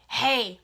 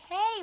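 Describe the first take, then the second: First: It is said in an angry tone. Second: It is said in a friendly tone.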